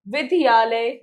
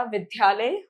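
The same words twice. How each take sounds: First: विद्यालय broken up as 'vi-di-yalay'; mispronounced word. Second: विद्यालय as 'vid-yalay', dy joined; correct pronunciation. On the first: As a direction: split the dy of विद्यालय with an extra i. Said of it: "नहीं होता". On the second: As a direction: run d straight into y in विद्यालय. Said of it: "होता है". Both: Shown as a demonstration.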